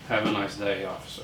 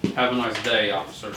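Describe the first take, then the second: First: It is said at a quieter, normal volume. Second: It is said louder, like calling out.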